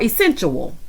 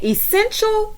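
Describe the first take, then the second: First: "essential" said like "essen-tual", ending drawn out; sensual-like mispronunciation. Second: Said in the usual way. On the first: Retold or imitated. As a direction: end "essential" in "chew-wul" instead of "shul". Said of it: "But she kept saying essential". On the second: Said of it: "is Latrice saying essential or essential".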